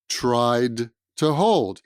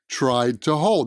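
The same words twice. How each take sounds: First: The words are separated and sound choppy. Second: The words are linked and sound smooth. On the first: The speaker calls it wrong. "That's very awkward sounding" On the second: The speaker calls it right. "That's a little bit smoother"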